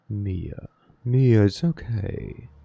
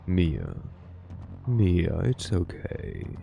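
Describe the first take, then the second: First: It is said in an ordinary voice. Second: It is said in a sultry, deep voice.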